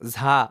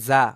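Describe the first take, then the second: First: The first consonant is aspirated, with a breathy release. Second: The first consonant is plain, without aspiration. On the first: The speaker calls it wrong. "অনেকে ঝা বলতেছেন" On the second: The speaker calls it right. "ঝা না কিন্তু ঝা"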